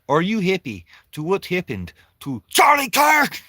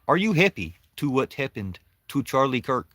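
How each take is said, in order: First: The last words are shouted much louder. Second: The last words are at normal volume.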